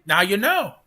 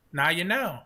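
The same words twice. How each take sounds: First: Emphatic. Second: Said in the usual way. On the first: Shown as a demonstration. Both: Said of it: "repeated line".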